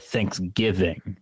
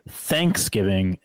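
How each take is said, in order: First: The stress is on the second syllable. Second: The stress is on the first syllable. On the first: "some people emphasize the G" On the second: "some people emphasize the TH"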